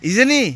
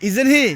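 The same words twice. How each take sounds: Both takes have the same delivery.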